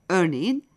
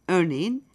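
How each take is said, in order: No difference in how they are said.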